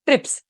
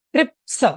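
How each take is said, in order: First: Said in the usual way. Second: ट्रिप्स said higher with a clear final s; final s sound demo. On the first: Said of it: "ट्रिप्स में स का sound आ रहा है last में". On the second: Shown as a demonstration. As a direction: stretch the end of ट्रिप्स into a crisp s. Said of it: "यहाँ पे स का आ रहा है".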